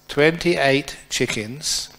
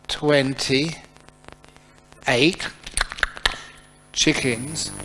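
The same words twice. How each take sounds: First: The phrase is said at a normal pace. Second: The phrase is said very slowly.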